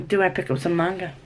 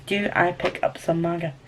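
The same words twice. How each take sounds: First: Quick, casual question to oneself; quick musing. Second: Soft, more measured question to oneself; deliberate pondering. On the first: Vlogger wonders about picking up manga, quick musing. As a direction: toss the question out fast. Asks herself, then repeats it deliberately. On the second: Vlogger ponders picking up manga, soft and deliberate. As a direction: weigh the question quietly, word by word. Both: Real, not acted.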